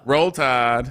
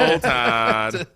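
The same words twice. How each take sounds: First: It is said in his normal accent. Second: It is said in an Alabama accent.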